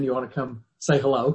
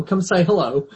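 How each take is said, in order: First: Said in the usual way. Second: Higher, louder coaxing call with a laugh; playful laughing call. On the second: Real, not acted. Teacher calls Maggie over to greet the class, laughing call. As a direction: coax her in, laughing.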